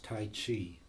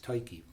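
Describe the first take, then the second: First: It sounds like the martial art tai chi. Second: It does not sound like tai chi. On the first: The speaker calls it wrong. "they think it's Tai Chi" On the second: The speaker calls it right. "but it's Tyche"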